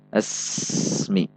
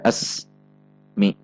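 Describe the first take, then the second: First: The two syllables run together without pause. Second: A pause separates the two syllables. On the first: The speaker calls it right. "Namun dibaca asmi. Di antara asmi tidak terjeda" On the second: The speaker calls it wrong. "Tidak dibaca as, mi, terjeda"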